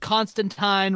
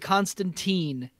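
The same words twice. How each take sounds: First: The last syllable rhymes with time. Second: The last syllable does not rhyme with time. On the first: The speaker calls it right. "Constantine rhymes with time" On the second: The speaker calls it wrong. "they keep pronouncing it Constantine, but that's wrong"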